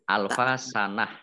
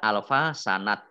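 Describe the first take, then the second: First: The final word ends with a soft h sound. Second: The final word ends with a t sound. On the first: The speaker calls it right. "kalau wakof dibaca sukun menjadi hak" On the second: The speaker calls it wrong. "tidak menjadi tak"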